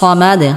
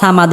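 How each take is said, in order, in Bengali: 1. প্রথম ব্যঞ্জনটি ভারী, বাতাসসহ 's'। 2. প্রথম ব্যঞ্জনটি হালকা, সাধারণ 's'। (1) "সাদ মোটা করে উচ্চারণ করতে হবে" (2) "আমরা এখানে অনেকেই সাদকে সিন বলি"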